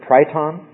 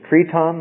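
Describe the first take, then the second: First: The word is said the English way. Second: The word is said the Greek way. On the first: "or we would pronounce it triton" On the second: "the Greek is triton"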